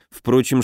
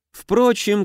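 First: Said in the usual way. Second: High, dismissive sphinx aside; bored, scornful sphinx. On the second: A narrator's reading. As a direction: toss it off with lofty scorn. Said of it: "скучающий и даже пренебрежительный голос". (скучающее «Впрочем» сфинкса)

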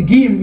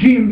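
First: "Gim" with a hard g; Egyptian pronunciation. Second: "Jim" with a soft zh onset; "Jim" softened, no d before it; soft pronunciation. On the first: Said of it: "nicht Gim wie die Ägypter". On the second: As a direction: say "Jim" starting like French "je". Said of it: "auch nicht Jim wie die anderen". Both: Shown as a demonstration.

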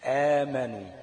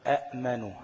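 First: آمنوا with a long stretched a, loud; final form. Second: أأمنوا with both hamzas, louder; original hamza form. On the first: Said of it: "تبقى إيه؟". (آمنوا بمد الألف بصوت عالٍ) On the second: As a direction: sound the two hamzas of أأمنوا. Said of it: "زي ما قلنا كده إيه؟". (أأمنوا بهمزتين) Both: Shown as a demonstration.

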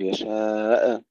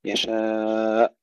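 First: Final hamza of يشاء bounced with an extra short vowel; wrong qalqala. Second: Very long يشاء stopped dead on the hamza; drawn-out يشاء, no echo at the end; still final hamza. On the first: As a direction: say يشاء faultily, echoing after the catch like "yasha-e". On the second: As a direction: recite يشاء with a long level aa and a clean cut. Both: Shown as a demonstration. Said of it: "لا نقول يشاء بالقلقلة".

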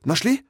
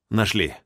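First: Sharp high questioning "Нашли?" with a rising end; "Нашли?" asked high and quick, hopeful; "Нашли?" as an excited question; eager question. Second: Said in the usual way. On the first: Acted. Biologist asks eagerly.

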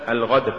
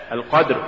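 First: "الغدر" with gargled gh replacing q; qaf becomes ghayn. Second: Said in the usual way. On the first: Shown as a demonstration. Teacher showing an error, "الغدر" said with ghayn for qaf. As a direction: loosen q into gh, giving "الغدر". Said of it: "تقرأ لحنا". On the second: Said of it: "استبدال القاف بالغين".

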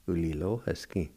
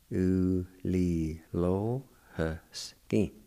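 First: Said in the usual way. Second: U li lo he ski drawn out slowly; slow demo pronunciation. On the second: Shown as a demonstration. Teacher models the word slowly for learners. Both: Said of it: "It's pronounced like this".

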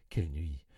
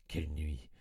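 First: Said in the usual way. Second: 1 whispered dread. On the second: A narrator's reading. Recalling a terrible night.

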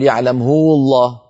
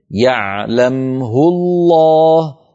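First: "يعلمه" with a long u added before "الله"; "يعلمه" read as "يعلمهو", marked wrong; wrong lengthening. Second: "يعلمه" with a short u on the h, no lengthening, very slow; "يعلمه" kept short before "الله"; correct reading. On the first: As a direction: show the wrong stretched "يعلمه". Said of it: "لا نقول". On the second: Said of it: "فوقعت هاء الضمير". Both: Shown as a demonstration.

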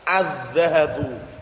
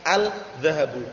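First: Slow "Adz-dzahabu" with a doubled dz and no l; "Adz-dzahabu", article melted into the dz; silent lam. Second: "al-dzahabu" with the l sounded and split off; unassimilated article in "al-dzahabu"; wrong clear al. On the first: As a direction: go straight from the a into a held dz in "Adz-dzahabu". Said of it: "huruf setelah lam". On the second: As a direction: say "al", break, then "dzahabu". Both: Shown as a demonstration.

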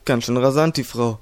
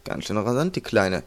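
First: Said in the usual way. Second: Soft, low teasing thought. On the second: A narrator's reading. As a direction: tease him quietly, as if in his head. (leise neckend) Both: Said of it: "neckte ihn Chino gedanklich".

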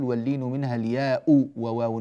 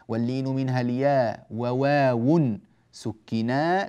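First: الياء said with a final glottal stop and u, "al-yaa'u"; wrong hamza on الياء. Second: الياء left open as "al-yaa", no glottal stop, in slow recitation; الياء without hamza. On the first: Teacher showing students what not to say in the verse, wrong hamza on الياء. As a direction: add a hamza and short u to close الياء. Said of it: "لا نقول". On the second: Teacher reciting the verse correctly for students, الياء shortened without hamza. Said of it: "لاحظوا أن الياء ليست بهمزة". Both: Shown as a demonstration.

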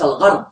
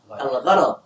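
First: الغرض said al-gharḍ, no vowel after the r; الغرض squeezed into one syllable, gharḍ; mispronunciation shown. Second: الغرض said al-gharaḍ, with an a after the r; two short a vowels in الغرض; correct pronunciation. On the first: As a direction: run r straight into ḍ in الغرض. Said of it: "وهذا ليس صحيحا". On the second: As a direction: open the middle of الغرض: gha-raḍ. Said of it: "ليس الغرض". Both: Shown as a demonstration.

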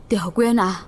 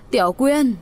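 First: Said in the usual way. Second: Frantic cry. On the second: Acted. Old man running cries for the girl, frantic. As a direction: cry out the name in alarm. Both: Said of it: "vừa hớt hải kêu lên".

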